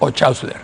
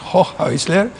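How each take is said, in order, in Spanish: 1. El nombre se pronuncia a la manera española. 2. El nombre se pronuncia a la manera alemana. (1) "si lo hacemos en castellano es" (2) "Si lo hacemos en alemán es"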